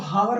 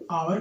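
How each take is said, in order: First: The word begins with an h sound. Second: The word begins with a vowel sound. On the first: The speaker calls it wrong. "वैसे इसको हावर नहीं पढ़ा जाता दोस्तों" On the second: The speaker calls it right. "आवर पढ़ते हैं"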